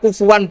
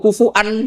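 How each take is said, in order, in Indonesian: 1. Bunyi w menyambungkan dua vokal di tengah. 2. Hamzah memisahkan dua vokal di tengah. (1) "hamzah diganti wawu" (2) "masih pakai hamzah"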